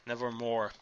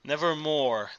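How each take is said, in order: First: The repeat falls away, much softer; fading echo. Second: Said in the usual way. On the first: A narrator's reading. Narrator echoing the refrain, fading and much softer. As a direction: let the second nevermore die off softly.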